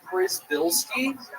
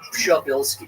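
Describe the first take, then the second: First: The surname is said with an American pronunciation. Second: The surname is said with a Polish pronunciation. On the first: "the American version is" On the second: "the Polish pronunciation is"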